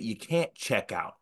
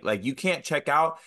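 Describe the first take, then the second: First: Said in the usual way. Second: "can't" held long, tune rising on "you can't check out"; insistent rising repeat; emphatic repeat. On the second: Shown as a demonstration. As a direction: lean into "can't" and lift the end.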